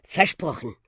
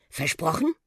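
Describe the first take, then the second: First: „Versprochen.“ with falling tune; confirming. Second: „Versprochen?“ with rising tune; questioning. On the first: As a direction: confirm „Versprochen.“ dropping at the end. („Versprochen.“ bestätigend, am Ende fallend) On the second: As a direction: ask „Versprochen?“ lifting the last syllable. („Versprochen?“ fragend, am Ende steigend) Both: Acted. One asks, the other confirms.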